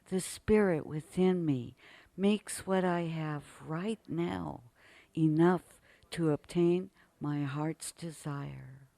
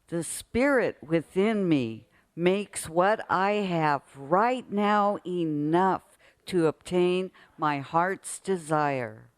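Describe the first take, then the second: First: It is said calmly, with quiet feeling. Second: It is said with loud, lively energy.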